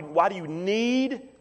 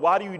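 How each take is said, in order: First: Why do you NEED, need leaned on and raised; stress on need. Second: Said in the usual way. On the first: Shown as a demonstration. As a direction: land the weight on need. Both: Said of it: "that's the emphasis".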